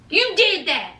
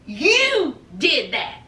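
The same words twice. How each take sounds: First: Said in the usual way. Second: YOU drawn out long and slow; slow, accusing "You", heavily stressed. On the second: Real, not acted. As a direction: lean hard on "You", stretching it out. Repeats it, stressing who did it.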